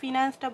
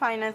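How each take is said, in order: First: The first vowel sounds like 'ee'. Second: The first vowel sounds like 'eye'. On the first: This is the form the speaker does not use. "আমি ফিনান্সটা বলি না" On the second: This is the form the speaker uses. "আমি ফাইন্যান্স বলি ভাই"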